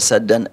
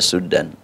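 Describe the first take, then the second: First: The first vowel is an open 'a'. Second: The first vowel is a rounded 'u'. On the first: This is one of two accepted recitation readings. "Ada dua qiraat, ada saddan" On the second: This is the other accepted recitation reading. "ada suddan"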